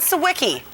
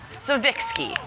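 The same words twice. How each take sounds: First: The surname is said the usual English way. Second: The surname is said the Polish way. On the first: The speaker calls it wrong. "nobody has correctly pronounced her last name" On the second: The speaker calls it right. "her proper Polish pronunciation"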